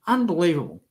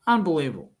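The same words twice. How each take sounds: The two takes are said the same way.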